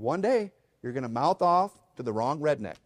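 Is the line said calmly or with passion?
calm. It is said fairly calmly, without much force.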